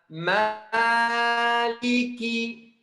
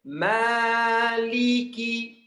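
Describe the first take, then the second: Both takes have the same delivery.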